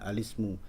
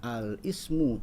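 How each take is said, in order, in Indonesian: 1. Vokal i menyambung ke l: alismu. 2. Ismu dimulai terpisah dengan hentian glotalnya sendiri. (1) "harokat kasroh dari hamzah wasol itu mundur ke lam dari alif lam" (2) "tidak dibaca al-ismu"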